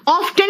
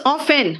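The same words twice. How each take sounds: First: Often said "off-ten" with audible T; T sounded. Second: Often said "off-en"; silent T. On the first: Teacher showing what to avoid, Often with T sounded. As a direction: put a T after the F in Often. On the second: Teacher correcting pupils, often with the T silent. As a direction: go from F straight to the vowel in often. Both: Shown as a demonstration. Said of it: "Often नहीं है".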